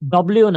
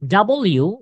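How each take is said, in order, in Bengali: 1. অক্ষরের নামটি সংক্ষিপ্ত করে, একসাথে চেপে বলা হয়। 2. অক্ষরের নামটি পুরো উচ্চারণাংশে বলা হয়।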